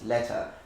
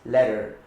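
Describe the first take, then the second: First: The middle consonant is a clear T. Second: The middle consonant is a soft D. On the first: "the T is always pronounced" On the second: "modification of the pronunciation of the T into a soft D"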